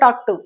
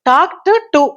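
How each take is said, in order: First: The t sounds merge, joining both words. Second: Both words are said separately with the ed sound.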